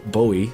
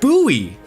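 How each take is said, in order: First: The first vowel sounds like 'oh' in 'go'. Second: The first vowel sounds like 'oo' in 'too'. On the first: The speaker calls it wrong. "pronounced like David Bo Bowie" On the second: The speaker calls it right. "instead pronounced Bowie, like the knife"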